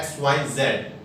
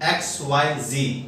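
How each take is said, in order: First: The last letter is said as zed. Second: The last letter is said as zee.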